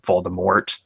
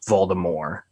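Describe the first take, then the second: First: The final T is clearly sounded. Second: The final T is left silent. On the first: It follows the usual English way of saying it. "everyone in the movies, and I also say Voldemort" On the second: It follows the French origin of the word. "pronounced without the T in French"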